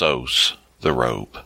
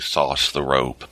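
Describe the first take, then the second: First: SOS is spoken as three separate letters. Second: SOS is spoken as one word, like sauce. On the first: "I'm thinking it's" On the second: "In my head, I usually say"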